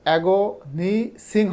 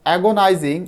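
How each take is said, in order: First: It has a short 'i' vowel and an 's'. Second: It has a long 'eye' vowel and a 'z'. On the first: The speaker calls it wrong. "হবে না" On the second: The speaker calls it right. "এটার উচ্চারণ কিন্তু"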